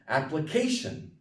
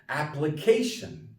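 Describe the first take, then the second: The two takes are said the same way.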